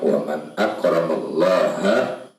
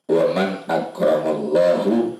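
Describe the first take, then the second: First: The word Allah ends with a 'ha' sound. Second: The word Allah ends with a 'hu' sound. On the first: The speaker calls it right. "kalimat yang betul adalah waman akramallaha, ha, tidak dibaca hu" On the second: The speaker calls it wrong. "dirubah dengan bacaan Allahu"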